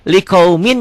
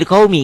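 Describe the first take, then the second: First: The word ends with a clear n sound. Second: The word ends without the n sound. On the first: "Setiap tanwin ketemu huruf bertasdid" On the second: "tanwinnya baca satu. Liqaumin jadi liqaumi"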